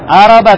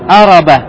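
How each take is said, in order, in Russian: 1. Слово начинается с гласного 'a'. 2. Слово начинается с гласного 'a'.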